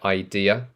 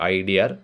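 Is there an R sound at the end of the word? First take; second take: no; yes. First: It ends in a vowel with no R sound. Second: It ends with an added R sound. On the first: "Notice the uh, ah sound at the end of idea" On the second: "people tend to add the R sound at the end of idea"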